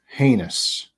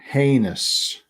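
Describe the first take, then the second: First: The first vowel is a long A sound. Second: The same.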